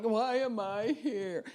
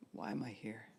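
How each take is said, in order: First: High, slow, whiny "Why am I here?" with a drawn-out "am"; mock a needy, demanding prayer. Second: Quiet, gentle "Why am I here?"; soft sincere. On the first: Preacher mocks the wrong way to ask God. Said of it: "And don't do it like, ... No, don't do that". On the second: Preacher models the right way to ask God. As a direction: ask it softly, not demanding. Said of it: "be asking God the questions". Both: Shown as a demonstration.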